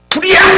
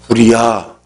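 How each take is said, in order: First: It is shouted loudly with urgency. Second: It is said calmly, without shouting.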